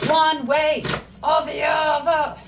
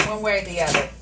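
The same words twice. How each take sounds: First: Slow, drawn-out, higher-energy repeat; exaggerated singsong delivery; playful drawl. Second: Said in the usual way. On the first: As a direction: stretch each word out playfully.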